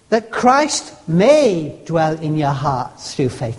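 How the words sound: The word may carries the stress. It might not be allowed to happen. "In other words, I might not let him"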